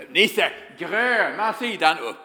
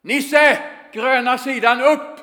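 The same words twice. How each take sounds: First: Drawn out, lightly voiced foreign coach; a hint of the broken-Swedish coach calling; slow mock coach call. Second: Much higher, louder yell out the window; shouted call. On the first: Coach calling to Nisse again and again, slow mock call. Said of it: "skriker han gång på gång". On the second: Retold or imitated. Coach yelling from the window to Nisse, full shout. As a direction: bellow it across the pitch. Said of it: "så skriker han".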